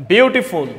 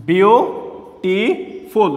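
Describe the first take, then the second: First: Said in the usual way. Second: "beautiful" very slow in three separate beats; split into syllables. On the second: Shown as a demonstration. Teacher showing students three parts, "beautiful" split syllable by syllable. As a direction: pause after each syllable of "beautiful". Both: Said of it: "এখানে হচ্ছে তিনটা".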